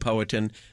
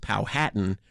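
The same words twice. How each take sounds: First: The word does not rhyme with Manhattan. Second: The word rhymes with Manhattan. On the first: "That does seem to be the accurate way to pronounce the word" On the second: "rhyming with Manhattan"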